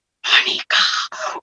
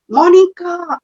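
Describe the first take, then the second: First: "Monika" breathed as a slow soft whisper; whispered name. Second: Said in the usual way. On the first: Retold or imitated. Baba's voice whispering "Monika" into her ear, hushed. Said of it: "एकदम जैसे". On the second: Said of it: "मेरे कान में एक आवाज आई".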